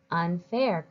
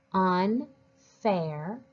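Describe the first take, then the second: First: Said in the usual way. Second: "unfair" as "un", pause, "fair"; split into parts. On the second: Shown as a demonstration. Teacher helps readers decode a longer word, split into parts. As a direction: break "unfair" before "fair". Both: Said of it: "use it to help us read the longer word".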